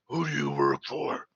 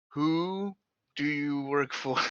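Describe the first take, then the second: First: It is said in a deep, gravelly put-on voice. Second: It is said in an ordinary speaking voice.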